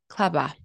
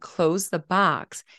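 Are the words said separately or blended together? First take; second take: blended; separately. First: The words are blended together with no boundaries. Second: The words are said separately with clear boundaries. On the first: "it sounds like this" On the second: This is the usual adult form of the phrase. "Instead of saying "close the box,""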